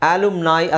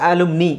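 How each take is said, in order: First: The word ends with an 'eye' sound. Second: The word ends with an 'ee' sound. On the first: "ಆಲುಮ್ನಾಯ್ ಅಥವಾ" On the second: "ಆಲುಮ್ನಿ ಅಂತಲೂ ಹೇಳ್ಬೋದು"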